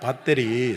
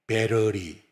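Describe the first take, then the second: First: The middle consonant sounds like a clear T. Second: The middle consonant sounds like a quick R. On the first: This is how Koreans say it. "우리는 밧데리 아닙니까?" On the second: This is how Americans say it. "미국 영어는 T자가 R로 들리잖아요"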